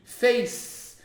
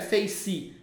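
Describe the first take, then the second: First: It ends on the consonant with no vowel. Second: An extra vowel sounds after the final consonant. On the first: The speaker calls it right. "termina no C" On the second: The speaker calls it wrong. "não é face"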